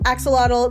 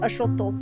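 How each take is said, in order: First: The x is said as a 'ks' sound. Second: The x is said as a 'ch' sound. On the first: This is the easier form Americans use. The speaker calls it wrong. "That's not really how you're supposed to pronounce it" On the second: This is the original way to say it. The speaker calls it right. "the X kind of has like a ch sound"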